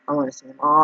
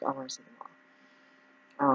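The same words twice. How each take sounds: First: Said in the usual way. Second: Drawn-out high plea. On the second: Retold or imitated. Eager pitch to insurers.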